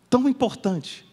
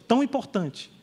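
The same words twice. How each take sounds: No difference in how they are said.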